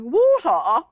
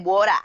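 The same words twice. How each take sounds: First: It is said in a British accent. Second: It is said in an Australian accent.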